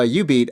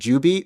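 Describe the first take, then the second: First: The name begins with a Y sound. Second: The name begins with a J sound. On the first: This is how the other person says it. "When you said Ju- uh, U beat" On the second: This is how the speaker always says it. "I always pronounce it Ju beat"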